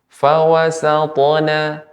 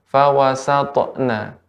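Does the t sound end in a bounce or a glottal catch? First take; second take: bounce; glottal catch. First: The t sound ends with a light bounce. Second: The t sound ends with an added glottal catch. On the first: The speaker calls it right. "Seharusnya tidak ada hamzahnya" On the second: The speaker calls it wrong. "Ibu tambahkan dengan hamzah"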